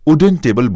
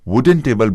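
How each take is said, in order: First: The word begins with a vowel sound. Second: The word begins with a consonant sound. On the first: The speaker calls it wrong. "स्वर अक्षर से प्रारंभ यानी ऊ से वुडन table बोलेंगे तो गलत माना जाएगा" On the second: The speaker calls it right. "व्यंजन से प्रारंभ वुडन टेबल बोलना ही सही है"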